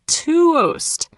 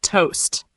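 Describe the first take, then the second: First: "toast" stretched long, higher pitched; slow demo. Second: Said in the usual way. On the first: Shown as a demonstration. Teacher repeats it for learners, slowly. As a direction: draw out "toast" as "tuh-oast". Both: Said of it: "Let's say it slowly".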